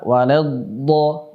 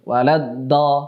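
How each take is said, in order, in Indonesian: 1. Bunyi d dipanjangkan dan mengalir. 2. Bunyi d pendek dan terhenti di ujung lidah. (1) "Jadi yang benar bagaimana? ... karena suara mengalir" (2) "langsung dari ujung lidah ... ini kurang tepat"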